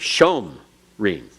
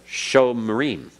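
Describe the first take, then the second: First: The stress is on the first syllable. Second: The stress is on the last syllable. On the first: "If the accent were on the sho" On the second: "So if it's not accented, then it's vocal"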